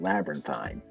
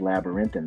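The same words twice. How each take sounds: First: It uses the British-style pronunciation. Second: It uses the common American-style pronunciation. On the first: "they pronounce it labyrinthine" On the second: "in the U K, they don't say labyrinthine"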